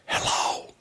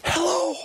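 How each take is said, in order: First: Breathy test of a voice that is gone; testing a lost voice. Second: Cracked attempt at a loud, high call; trying to call out. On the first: Checking whether her voice works, with only a whisper. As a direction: try the voice and get only air. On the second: Testing her lost voice with a forced call out. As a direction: push hard for sound, voice cracking. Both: Real, not acted. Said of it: "my voice is gone".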